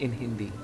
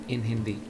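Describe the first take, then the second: The two takes are said the same way.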